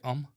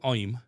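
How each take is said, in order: First: It is said without a Black Country accent. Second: It is said in a Black Country accent. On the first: "we say I'm"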